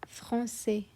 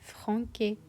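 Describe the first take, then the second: First: The middle consonant is a soft S sound. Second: The middle consonant is a hard K sound. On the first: "because there is a sidai, we say français" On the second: "If there wouldn't be the sidai, we would pronounce it as franquet"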